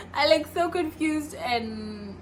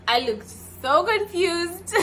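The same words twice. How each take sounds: First: Slow laughing. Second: Laughing. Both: Real, not acted.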